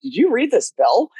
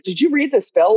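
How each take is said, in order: First: "Did you read this bill?" rising to the end; curious rising intonation; rising question tune. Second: "you" lifted, rest of the question even; accusing stress on "you". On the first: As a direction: let "bill" lift like a real question. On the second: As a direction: lean on "you" in "Did you read this bill?". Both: Shown as a demonstration. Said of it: "sometimes it's different intonation".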